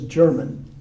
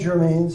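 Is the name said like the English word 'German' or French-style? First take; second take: English word; French-style. First: It sounds like the English word German. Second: It is said in a French-like way.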